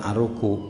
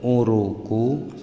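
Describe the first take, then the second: First: The word begins with an 'a' vowel. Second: The word begins with a 'u' vowel. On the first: The speaker calls it wrong. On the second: The speaker calls it right.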